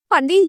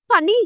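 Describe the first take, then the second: First: Anxious cry of the name, voiced lightly; mother rushing in, calling out in a panic; panicked call. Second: Higher, frantic cry of the name; panicked call. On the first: Mother bursting in, a lightly voiced panicked call. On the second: Mother rushing in, crying the name in a higher panicked call. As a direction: call out in real alarm. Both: A narrator's reading. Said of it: "என்று பதறிக்கொண்டு வந்தார்".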